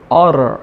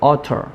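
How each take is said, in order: First: It is said in an American accent. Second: It is said in a British accent. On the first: "발음은 utter 이렇게 발음하지만" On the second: "영국식으로"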